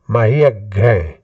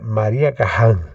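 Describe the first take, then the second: First: The surname is pronounced in an English way. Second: The surname is pronounced in a German way. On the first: "Se nós pegarmos a pronúncia inglesa, mais ou menos correta" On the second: "Se puxarmos para a pronúncia alemã"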